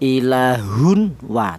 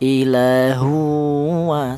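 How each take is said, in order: First: The n sound is pronounced clearly before the w. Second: The n sound merges directly into the w. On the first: The speaker calls it wrong. "Idhar itu artinya jelas ... tidak boleh" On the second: The speaker calls it right. "Yang benar tanwin ini langsung menyatu atau langsung idgham ke huruf wawu"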